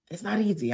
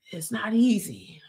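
First: Said in the usual way. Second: Breathy whisper, leaning in; whispered aside. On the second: Real, not acted. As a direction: let it slip out as a whisper. Repeats it as confession.

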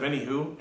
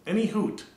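First: Said in the usual way. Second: Any hoot in a high silly voice; mocking any hoot. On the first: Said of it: "instead of any who". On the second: Shown as a demonstration. Mocking a viewer's phrase, high silly Any hoot. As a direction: pitch Any hoot up, teasing. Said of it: "if you say any hoot".

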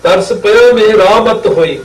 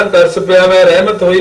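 First: ਮੇਰਾ ਮਤ with a long open raa; correct pronunciation. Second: ਰਹਿਮਤ as short reh-mat; wrong pronunciation. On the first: Shown as a demonstration. Teacher correcting the misreading by spelling, ਮੇਰਾ ਮਤ with long raa. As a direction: sound ਮੇਰਾ ਮਤ as meh-raa-mat. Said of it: "ਮੰਮੇ ਨੂੰ". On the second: Retold or imitated. Teacher quoting misreaders at the shrine, ਰਹਿਮਤ said short. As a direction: run ਮੈਂ ਰਹਿਮਤ briskly with a short reh. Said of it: "ਉੱਥੇ ਵੀ ਠੀਕ ਨਹੀਂ ਪੜ੍ਹਦੇ".

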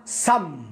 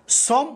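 First: سم said with an open "a", like "sam"; correct open vowel. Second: صم said with a rounded "o", like "som"; wrong rounded vowel. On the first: Teacher showing what to say instead, open-vowel سم as "sam". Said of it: "وانطقها". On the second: Teacher showing what not to say, rounded-vowel صم as "som". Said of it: "لا تنطقها". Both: Shown as a demonstration.

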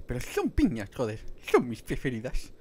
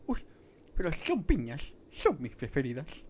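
First: Ice Age sloth impression. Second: Higher and louder goofy sloth voice, retried; Ice Age sloth impression. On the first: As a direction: belt out the Ice Age sloth's pineapple line. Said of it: "sé imitar al de Ice Age". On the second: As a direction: have another go at the sloth voice, pitched up. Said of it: "¿Cómo era?".

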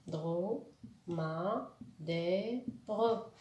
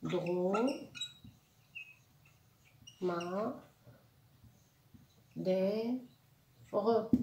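First: "Drôme. Ma. Des. Re" in four steady beats; short pauses between each syllable of "Drôme. Ma. Des. Re"; split into syllables. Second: "Drôme. Ma. Des. Re" with long pauses between four beats; split into syllables. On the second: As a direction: hold and isolate each syllable of "Drôme. Ma. Des. Re". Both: Shown as a demonstration. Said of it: "Quatre syllabes".

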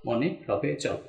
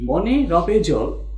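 First: Said in the usual way. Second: Very slow, each word spaced out for writing, with মনে leaned on; slow dictation. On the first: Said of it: "এই ছয়টাই হচ্ছে ফলা". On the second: Shown as a demonstration. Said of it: "এই বাক্যটার মধ্যে যতগুলো বর্ণ".

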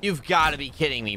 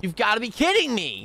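First: Said in the usual way. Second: Higher, escalating disbelief; exasperated disbelief. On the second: Real, not acted. Gamer reacting to another death, exasperated disbelief. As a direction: pitch it up, unable to believe it. Repeats it more incredulously.

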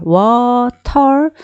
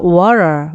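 First: Water with a clearly sounded T, British style. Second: Water with the T dropped, American style. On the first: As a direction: break water open on a firm T. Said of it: "영국식 발음은 T 발음을 소리를 내주지만". (T를 살린 영국식 'water') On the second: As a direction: glide through water without a crisp T. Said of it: "주로 T를 날리기도 해요". (T를 날린 미국식 'water') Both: Shown as a demonstration.

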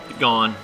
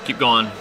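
Both takes have the same delivery.

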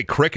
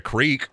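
First: "crick" with a short i, rhyming with brick; Midwestern crick. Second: Said in the usual way. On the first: Shown as a demonstration. Showing own Iowa word for creek, "crick" with short i. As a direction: say "crick" with the vowel of sit. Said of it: "I say a couple words weird". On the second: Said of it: "instead of creek".

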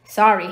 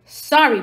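First: Quick, loud little apology; hurried boy's apology. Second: Loud, higher indignant bark; giant's barked echo of an apology. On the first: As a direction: blurt out a quick sorry as the boy. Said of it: "Harry said quickly". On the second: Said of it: "barked Hagrid". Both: A narrator's reading.

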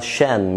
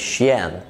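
First: "شان" as one syllable, shun; "شان", sh straight into the n; correct pronunciation. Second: "شيان" in two syllables, shee-yan; "شيان" split as shi-YAN; wrong pronunciation. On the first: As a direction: say "شان" with no y glide. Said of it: "بتتقال شان مش شيان". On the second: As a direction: say "شيان" with an added y glide. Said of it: "مش شيان". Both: Shown as a demonstration.

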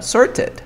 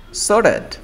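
First: Sorted with the T sounded, high; "sorted" keeping T after R; full T pronunciation. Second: Sorted said "sor-ed", high; "sorted" gliding from R to vowel; dropped T. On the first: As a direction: say "sorted" as written. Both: Shown as a demonstration. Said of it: "aquí estoy pronunciando R".

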